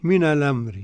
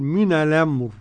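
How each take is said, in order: First: The r is light, with a final i vowel. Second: The r is heavy, with no final vowel. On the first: "لما أصل الراء مركّكة مكسورة" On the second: "بالتفخيم كده"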